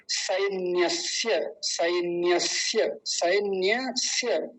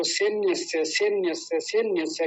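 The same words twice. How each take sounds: First: सैन्यस्य said very slowly and clearly as "सैन्य-स्य"; correct slow pronunciation. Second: सैन्यस्य said as "सेन्यसे", mimicking the common mistake; imitating wrong pronunciation. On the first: Shown as a demonstration. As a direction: drill सैन्यस्य slowly, syllable by syllable. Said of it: "ऐसे करके". (सही उच्चारण, धीरे-धीरे) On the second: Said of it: "गलत उच्चारण है". (गलत उच्चारण की नकल)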